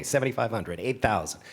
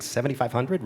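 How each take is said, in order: First: "seventy-five hundred" stated with a falling tune, then "eight thousand"; falling auctioneer call. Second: "seventy-five hundred?" asked with a rising tune, teasing the bidder; questioning auctioneer call. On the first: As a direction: land "seventy-five" firmly and move to the next bid. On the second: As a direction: lift "hundred" up like a question to the room. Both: Retold or imitated. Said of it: "way more fun to talk to all of you".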